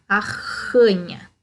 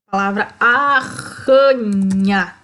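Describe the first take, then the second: First: Arranha said slowly, rr rasped hard; scratchy R. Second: Arranha slowed, rr scraped in the throat; scratchy R demo. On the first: Teacher repeats arranha's scratchy rr for pupils. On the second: Teacher shows the class the scratchy rr in arranha. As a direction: drag out arranha with a harsh throaty rr. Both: Shown as a demonstration. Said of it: "o som arranhado".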